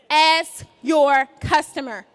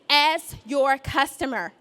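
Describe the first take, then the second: First: It is said loudly and with feeling. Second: It is said at normal, quieter volume.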